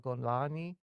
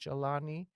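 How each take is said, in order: First: The name is said the Egyptian way. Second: The name is said the general Arabic way. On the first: "Golani is the Egyptian uh, pronunciation"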